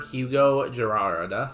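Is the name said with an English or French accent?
English. The name is said with a plain English accent.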